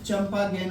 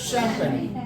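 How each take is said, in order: First: It begins with ch and ends like gain. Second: It begins with sh and ends like pen. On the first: The speaker calls it wrong. "सीधा सीधा मिला करके उच्चारण करेंगे" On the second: The speaker calls it right. "इसका सही तरीका उच्चारण"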